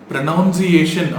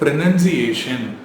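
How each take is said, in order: First: The second syllable sounds like 'noun'. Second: The second syllable sounds like 'nun'. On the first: The speaker calls it wrong. "ப்ரனவுன்சியேஷன் அப்படின்னு சொன்னால் தப்பு" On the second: The speaker calls it right. "இது ப்ரனன்சியேஷன்"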